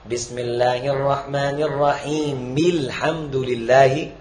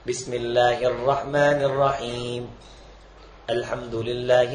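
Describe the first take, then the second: First: 'Rahim' runs straight into 'alhamdulillahi' without pausing. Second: 'Rahim' and 'alhamdulillahi' are said as separate words.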